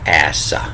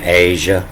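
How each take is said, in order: First: The middle sound matches the s in gasoline. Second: The middle sound differs from the s in gasoline. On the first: The speaker calls it right. "It's actually Asa, as in like gasoline" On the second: The speaker calls it wrong. "which I've been pronouncing wrong"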